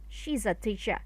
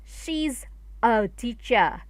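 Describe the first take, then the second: First: She's and a are linked together. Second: She's and a are said separately. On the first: The speaker calls it right. "you should link the sound" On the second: The speaker calls it wrong. "it sounds not naturally"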